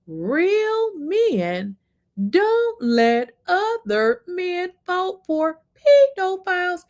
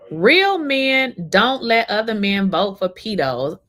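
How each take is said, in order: First: It is said very slowly, word by word. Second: It is said at normal speed.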